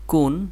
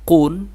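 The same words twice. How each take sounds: First: কুন with a thin, light k; thin letter sound. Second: কুন with a thick, back-of-mouth k; thick letter sound. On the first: Teacher contrasting two letters, thin k in কুন. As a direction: keep the k of কুন light and unthickened. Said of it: "এটা চিকন". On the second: Teacher contrasting two letters, thick k in কুন. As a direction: make the k of কুন heavy and far back. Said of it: "এটা মোটা". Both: Shown as a demonstration.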